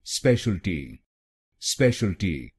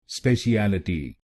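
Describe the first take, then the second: First: speciality with the weight on space; stress on the first syllable. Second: speciality said slowly as spe-shi-AL-i-ti with the weight on AL; wrong stress. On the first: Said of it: "पहले शब्दांश पर ... जोर डालना". (पहले शब्दांश space पर ज़ोर देकर speciality) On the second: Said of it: "ए एल अक्षरों पे जोर डालते हैं". (गलत ज़ोर, स्पेशलिटी में अल पर ज़ोर) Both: Shown as a demonstration.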